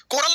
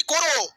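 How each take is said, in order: First: कोरल said as ko-ral, with a clear l at the end; the wrong version, कोरल ending in l; wrong word Coral. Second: कोरो said as ko-ro, no l at the end; the right version, कोरो ending in an open o; corrected to Koro. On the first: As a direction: say कोरल with its final l. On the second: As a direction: say कोरो cleanly, two open syllables. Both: Shown as a demonstration. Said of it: "कोरल नहीं, कोरो".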